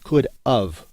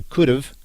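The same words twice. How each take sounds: First: "could of" with a full, stressed OF; wrong form "could of". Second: "could have" run together as could've; contracted could've. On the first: Teacher rejecting the error, distinct OF in "could of". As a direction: separate "could" and OF as two words. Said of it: "but not could of". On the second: Teacher showing the contraction, "could have" slurred into could've. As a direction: shorten "have" to a weak 'uv' in "could have". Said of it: "shortened in a contraction to". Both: Shown as a demonstration.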